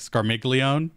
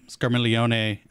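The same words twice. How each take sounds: First: The G in the middle is clearly pronounced. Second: The G in the middle is silent. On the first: It follows the familiar habitual pronunciation. "really pronouncing that G" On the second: It follows the Italian pronunciation. "I'm trying to use the more, you know, formal Italian"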